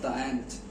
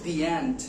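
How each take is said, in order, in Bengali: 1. 'The' উচ্চারণ হয় ছোট 'uh' স্বরধ্বনি দিয়ে। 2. 'The' উচ্চারণ হয় লম্বা 'ee' স্বরধ্বনি দিয়ে। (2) "We use"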